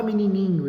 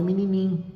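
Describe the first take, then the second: First: Said in the usual way. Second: Menininho clipped to mininim, last syllable dropped; mineiro clipped syllables. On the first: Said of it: "Ele não fala menininho". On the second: Shown as a demonstration. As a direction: swallow the end of menininho like a mineiro. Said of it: "ele suprime algumas sílabas".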